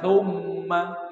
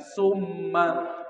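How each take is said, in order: First: It begins with a th sound, tongue between teeth. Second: It begins with a plain hissing s sound. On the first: It means 'then'. The speaker calls it right. "Maka baca thumma" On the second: It means 'poisoned'. The speaker calls it wrong. "jangan summa"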